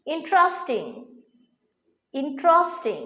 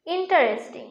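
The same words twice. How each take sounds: First: ইন্টারেস্টিং in three syllables, 'in-tros-ting'; corrected pronunciation. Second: ইন্টারেস্টিং in four syllables, 'in-ta-res-ting'; common mispronunciation. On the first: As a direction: squeeze the middle of ইন্টারেস্টিং to 'tros'. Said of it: "এর সঠিক pronunciation". (ইন্টারেস্টিং-এর শুদ্ধ উচ্চারণ, 'ইনট্রস্টিং') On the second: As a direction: say ইন্টারেস্টিং with a full 'ta-res'. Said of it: "pronunciation কিন্তু ভুল". (ইন্টারেস্টিং-এর ভুল উচ্চারণ, 'ইন-টা-রেস-টিং') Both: Shown as a demonstration.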